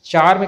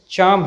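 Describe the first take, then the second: First: चार्म with an audible r before m; sounded r. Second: चार्म as "chaam"; silent r. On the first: Teacher calls this form wrong, r sounded. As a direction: pronounce the r in चार्म. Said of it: "कहना गलत है". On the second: Teacher gives correct pronunciation, r silent. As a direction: say चार्म without the r. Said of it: "इसका सही pronunciation". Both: Shown as a demonstration.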